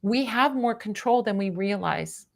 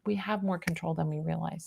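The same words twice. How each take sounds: First: Said in the usual way. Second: Softer, lower echo of the statement; quiet repeat. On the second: Real, not acted. Reader closing advice to a listener, quietly reflective. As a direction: drop the voice and let it settle.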